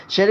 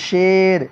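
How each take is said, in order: First: شیر mispronounced as sheer, with a tight ee; wrongly pulled to ee. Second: شیر said sher, with an open e; open e, ya majhool. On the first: Teacher shows what over-pulling does, ee instead of e. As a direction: turn the e of شیر into ee. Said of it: "شیر کو کھینچنا شیر ہو جائے گا". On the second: Teacher gives a ya majhool example, open e. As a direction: keep the vowel of شیر at e, not ee. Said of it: "جو یا کھینچ کر نہ پڑھی جائے". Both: Shown as a demonstration.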